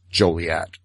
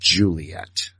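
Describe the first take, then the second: First: The first syllable sounds like 'Joe'. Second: The first syllable sounds like 'Jew'. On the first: The speaker calls it right. "the proper pronunciation of Joliet is" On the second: The speaker calls it wrong.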